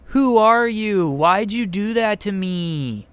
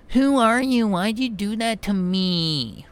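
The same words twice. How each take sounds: First: High, slow, limp mock delivery; bad acting. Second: Bad acting. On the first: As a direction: mimic a feeble wooden line reading. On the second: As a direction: parody a weak wooden line reading. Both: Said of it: "if she delivers it like this".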